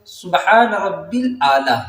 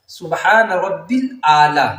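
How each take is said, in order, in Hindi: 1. बीच का शब्द rabbil बोला जाता है। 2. बीच का शब्द rabbil बोला जाता है।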